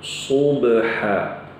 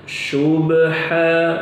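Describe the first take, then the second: First: The word begins with an emphatic s. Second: The word begins with an sh sound. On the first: The speaker calls it right. "yang benar dengan huruf sad" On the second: The speaker calls it wrong. "ini salah"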